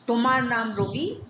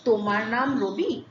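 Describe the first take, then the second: First: The voice falls at the end. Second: The voice rises at the end.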